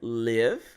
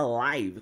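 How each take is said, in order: First: The vowel is short, rhyming with give. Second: The vowel is a diphthong, rhyming with five. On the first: It means to reside somewhere. "a mesma palavra com a pronúncia live. I live in Santos, eu moro em Santos" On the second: It means broadcasting in real time. "a gente também tem a pronúncia live. Quando eu falo, por exemplo, I'm live on YouTube"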